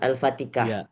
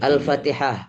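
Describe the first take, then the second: First: The last consonant is a k sound. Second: The last consonant is a breathy h sound. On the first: The speaker calls it wrong. "bukan Al-Fatikah" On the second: The speaker calls it right. "yang benar adalah Al-Fatihah"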